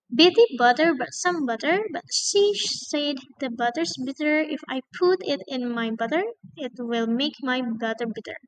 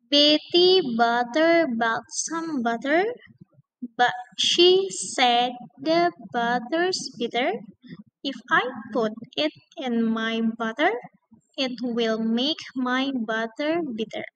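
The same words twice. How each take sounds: First: It is said very fast. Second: It is said slowly.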